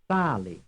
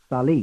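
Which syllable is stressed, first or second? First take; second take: first; second. First: The stress is on the first syllable. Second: The stress is on the second syllable. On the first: It means salt. "The answer is the first" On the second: It means it went up. "is the second"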